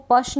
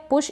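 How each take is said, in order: First: पश with unrounded 'uh' instead of 'oo'; wrong vowel demo. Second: पुश with short u, not 'uh'; short-u pronunciation. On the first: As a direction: say पश with an 'uh' vowel, rhyming with 'hush'. (पश में उ की जगह अ का उच्चारण) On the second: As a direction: say पुश with a short rounded 'oo', as in 'book'. (पुश में छोटे उ का उच्चारण) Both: Shown as a demonstration. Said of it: "इसको पश नहीं पढ़ेंगे".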